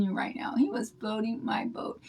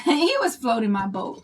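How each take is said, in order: First: Whispered, softer, like a secret shared with viewers; giddy hushed aside; delighted whisper. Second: Said in the usual way. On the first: Real, not acted. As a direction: lean in and whisper the confession. Flattered grandma confides to viewers.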